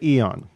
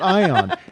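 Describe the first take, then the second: First: The word begins with an 'ee' sound. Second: The word begins with an 'eye' sound. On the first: This is how it is said in Greece. "in Greece they say eon" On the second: This is how it is not said in Greece. "and not ion"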